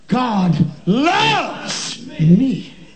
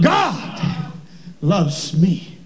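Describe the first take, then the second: First: The word loves carries the emphasis. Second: The word God carries the emphasis. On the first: "emphasizing a different word" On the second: "emphasizing a different word"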